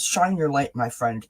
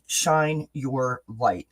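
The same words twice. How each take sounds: First: Said in the usual way. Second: Slow emphatic repeat. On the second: Shown as a demonstration. Repeated slowly.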